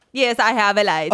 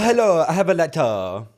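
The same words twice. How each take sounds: First: Clumsy mock-Italian accent; badly faked Italian bellboy accent; attempted Italian accent. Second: Higher-pitched mock Italian accent; playful put-on Italian accent. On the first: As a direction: try an Italian accent and miss. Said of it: "however the fuck you do an Italian accent". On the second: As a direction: imitate an Italian bellboy, pitched up. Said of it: "That's better than what I did".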